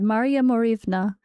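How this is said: The name has a Russian pronunciation. "that is Russian"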